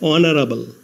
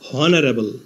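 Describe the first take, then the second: First: The word begins directly with a vowel sound. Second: The word begins with an audible h sound. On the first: The speaker calls it right. "এইচ এর উচ্চারণ না হয়ে vowel ও থেকে উচ্চারণ শুরু হয়েছে অনারেবল" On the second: The speaker calls it wrong. "প্রথমে এইচ ধরে উচ্চারণ করলে হয় হনারেবল"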